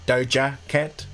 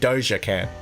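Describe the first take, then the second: First: The name is said carefully with its intended sounds. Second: The name is said quickly in a New Zealand accent. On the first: The speaker calls it right. "apparently, it's supposed to be Doja Cat" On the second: The speaker calls it wrong. "It's my New Zealand accent, number one, that causes me to say it like that"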